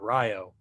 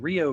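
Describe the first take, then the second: First: Rio is said with an anglicized pronunciation. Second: Rio is said with its standard pronunciation. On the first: This is how an old British sailor would say it. "when you're an eighteenth century British sailor, you pronounce that Rio" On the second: This is the river's real name. "the real river's called Rio Grande"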